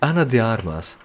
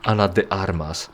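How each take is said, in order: First: The name is mumbled with English-like sounds. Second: The name is said with Spanish sounds. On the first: "I'm just mumbling it, sort of trying to pretend that I'm speaking English" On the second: "trying to s- say the name writer for the language it comes from"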